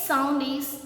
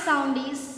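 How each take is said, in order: Both takes have the same delivery.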